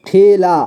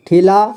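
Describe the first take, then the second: First: ठेला split as ठे, ला; syllable by syllable. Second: Said in the usual way. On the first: Shown as a demonstration. Teacher showing learners ठेला, sounded out in parts. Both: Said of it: "इसे पढ़ेंगे".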